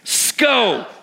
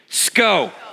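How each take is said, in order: First: It is said with more force and energy. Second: It is said with ordinary, lower energy.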